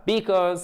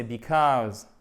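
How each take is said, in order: First: "because" accentué sur la première syllabe; mauvaise accentuation. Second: "because" with the second syllable stressed, drawn out slowly; accent sur la deuxième syllabe. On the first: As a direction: say "because" wrongly, first syllable high and stressed. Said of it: "c'est pas because". (« because » accentué à tort sur la première syllabe) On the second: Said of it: "accent tonique sur la deuxième syllabe". (« because » lent, accentué sur la deuxième syllabe) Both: Shown as a demonstration.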